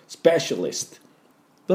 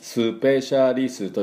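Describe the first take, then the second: First: The opening s joins p with no vowel. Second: A vowel is inserted after the opening s. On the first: The speaker calls it right. "英語っぽい発音" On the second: The speaker calls it wrong. "スペシャリストじゃなくて"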